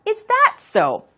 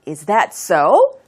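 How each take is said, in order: First: The voice falls at the end. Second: The voice rises at the end.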